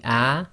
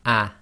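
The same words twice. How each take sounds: First: Ah held as a full open vowel; ah said long and open before the stop. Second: Ah cut short by a glottal stop; ah said half length and stopped hard in the throat; clipped ah. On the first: Teacher shows the plain fatha vowel, held long. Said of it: "this hamza on top of the alif with the fatha would be". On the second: Teacher shows the vowel clipped by a hamza. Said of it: "With a hamza after it with a sukun, it will become". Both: Shown as a demonstration.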